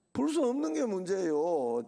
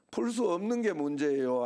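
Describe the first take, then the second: First: Firm answer, 수 stretched and falling; 풀 수 없는 게 문제예요 stated firmly with a long falling 수; emphatic answer. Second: Rhetorical question with stress on 수; 풀 수 없는 게 문제예요 asked with weight on 수 and left open; asking question. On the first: Pastor answering his own question, firm emphatic answer. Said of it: "수학 문제가 어려운 게 문제예요?". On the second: Pastor quizzing the congregation, rhetorical question. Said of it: "아니면은". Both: Shown as a demonstration.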